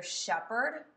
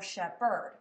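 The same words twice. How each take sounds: First: Shepherd with the weight on SHEP; stress on first syllable. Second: Shepherd with the weight wrongly on HERD; stress on second syllable. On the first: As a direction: hit the first syllable of shepherd, lighter second. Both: Shown as a demonstration. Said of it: "say the word a couple different ways".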